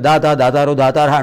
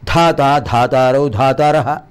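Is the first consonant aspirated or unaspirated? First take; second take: unaspirated; aspirated. First: The first consonant is said without aspiration. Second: The first consonant is said with aspiration. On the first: The meaning changes to a giver. The speaker calls it wrong. "చాలా తప్పు చెప్తున్నారు మీరు" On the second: It means the creator god. The speaker calls it right. "ఒత్తు పెట్టాలి"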